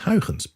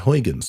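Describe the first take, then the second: First: The name is said the Dutch way. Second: The name is said the English way. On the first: "the correct pronunciation is Huygens" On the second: "I follow the pronunciation that an English speaker would follow"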